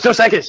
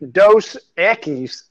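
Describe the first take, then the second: First: It is said quickly and smoothly. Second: It is said slowly and drawn out.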